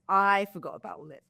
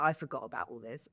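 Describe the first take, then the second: First: Said in the usual way. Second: Quiet. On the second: Retold or imitated. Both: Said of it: "I was like".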